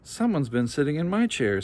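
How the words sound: It is said in a mild, middle-sized voice.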